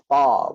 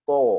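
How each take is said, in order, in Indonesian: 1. Vokalnya bunyi ah yang terbuka. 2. Vokalnya bunyi oh yang membulat. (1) "Huruf Ta bukan To" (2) "bukan To"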